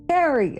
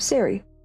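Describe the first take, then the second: First: The name begins with a K sound. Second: The name begins with an S sound. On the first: The speaker calls it right. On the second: The speaker calls it wrong.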